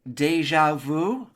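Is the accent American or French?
American. It is said with an American accent.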